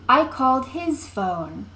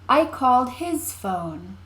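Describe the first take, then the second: First: The stress falls on his. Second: The stress falls on his.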